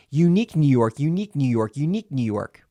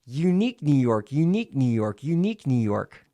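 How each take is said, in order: First: Said in the usual way. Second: Connected syllables, repeated in a run; legato with pen in teeth. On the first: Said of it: "and then without it". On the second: Shown as a demonstration. Coach demonstrating three repetitions, continuous legato. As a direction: link it all up round a pen. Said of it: "staccato and legato".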